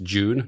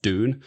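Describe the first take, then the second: First: It is said with a British pronunciation. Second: It is said with a North American pronunciation. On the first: The speaker calls it right. "I'm using the British pronunciation" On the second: The speaker calls it wrong. "not Dune"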